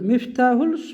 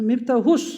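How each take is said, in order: First: The word ends with an L sound. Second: The word ends with an S sound. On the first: The speaker calls it wrong. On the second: The speaker calls it right.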